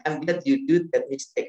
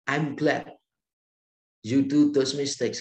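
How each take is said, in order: First: Loud, slow, stressing do; warm praise again. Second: Loud and slow, beaming; warm praise. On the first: Professor repeating his praise to the student, slow and emphatic. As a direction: repeat it slower and fuller. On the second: Professor to student who wrecked the engine, a slow loud glad reply. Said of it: "Pak Tong bilang begini". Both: Retold or imitated.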